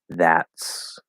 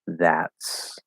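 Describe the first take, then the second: No difference in how they are said.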